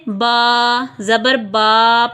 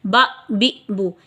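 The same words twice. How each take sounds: First: बा ज़बर बा read a little slower, the wrong way; demonstrating the wrong way; wrong reading shown. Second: बा बी बू stretched slowly, the wrong way; demonstrating the wrong way; wrong reading shown. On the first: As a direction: show the mistake to avoid. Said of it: "इस तरीके से नहीं पढ़ना". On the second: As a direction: show the stretched mistake. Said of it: "इस तरीके से भी नहीं पढ़ेंगे". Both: Shown as a demonstration.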